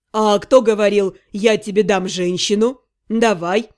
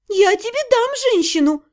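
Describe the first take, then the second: First: Lower, sly mocking quote; teasing necromancer. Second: High indignant "дам" punched. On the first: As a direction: tease her with her own words. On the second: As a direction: bristle at being called "женщину". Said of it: "возмутилась я". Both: A narrator's reading.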